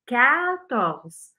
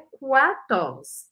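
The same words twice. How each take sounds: First: No 'w' sound follows the first 'k'. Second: A 'w' sound follows the first 'k'. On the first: The speaker calls it right. "É quatorze" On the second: The speaker calls it wrong. "Presta atenção para não falar o U. Não é quatorze"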